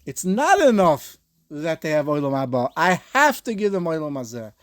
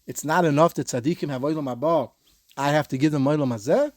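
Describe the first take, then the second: First: 'not' hit hard and louder, 'enough' falling; stress on NOT. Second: 'it's not enough' read as a rising question; 'olam hazeh' lifts at the end like a query; Rashi's reading. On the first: The Bas Ayin's reading for students, punching 'not'. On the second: A Rashi reading for students, rising on 'hazeh'. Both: Shown as a demonstration. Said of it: "It, it depends where you put the emphasis".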